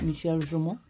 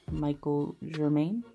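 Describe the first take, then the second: First: The name is said with French-style sounds. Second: The name is said with American English sounds. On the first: "I believe is how you pronounce it" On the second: "in regular Americanized English, it would be like"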